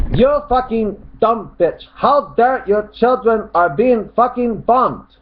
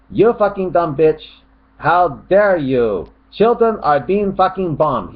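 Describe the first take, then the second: First: High, slow shouted run-on rant; mock angry shout. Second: Raised mock shout, broken after "bitch" and "you"; shouted with pauses. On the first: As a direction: shout it high with no break after "dare". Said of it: "He starts shouting". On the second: Shown as a demonstration. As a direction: pause after "How dare you", then shout the rest. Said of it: "I think he means this way".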